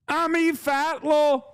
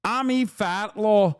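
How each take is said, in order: First: Much higher, slow put-on Middle Eastern accent with a laugh; mock Middle Eastern accent. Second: Mock Middle Eastern accent. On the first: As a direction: break into a laugh mid-parody, accent on thick. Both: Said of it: "organic Middle Eastern accent".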